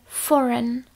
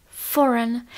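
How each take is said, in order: The two takes are said the same way.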